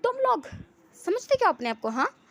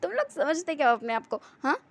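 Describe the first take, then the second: First: High, loud outraged challenge; shouted, high-pitched confrontation; indignant shout. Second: Understated scornful challenge, hint of amusement; lightly acted, oddly amused taunt; strange mocking tone. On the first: Acted. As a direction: yell it at them, pitched way up. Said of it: "फिर चिल्ला के कहता है". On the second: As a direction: toss it out mockingly, no shouting. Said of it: "हंसते हुए कह रहा था".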